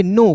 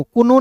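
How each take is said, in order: First: "नो" said "no", with no k sound; "नो" as one syllable starting on n; silent k. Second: "कोनो" said "ku-no", with the k voiced as its own syllable; "कोनो" as two syllables, the wrong reading of know; k wrongly sounded. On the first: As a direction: leave the k silent in "नो". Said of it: "तो इसे पढ़ेंगे नो". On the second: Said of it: "कोनो नहीं पढ़िएगा". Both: Shown as a demonstration.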